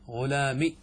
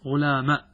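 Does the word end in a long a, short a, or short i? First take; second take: short i; short a. First: The word ends in a short i vowel. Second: The word ends in a short a vowel. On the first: "كسرة بدون ياء" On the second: "قلبنا الياء إلى ألف ثم حذفناها ... فننطق هكذا"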